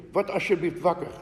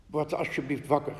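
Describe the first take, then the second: First: Mild urgent cry, slightly raised; understated urgent plea; narrated shout. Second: Said in the usual way. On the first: A narrator's reading. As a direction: urge someone awake, short of shouting. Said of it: "Ze schreeuwde". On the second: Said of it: "de stem van zijn vrouw".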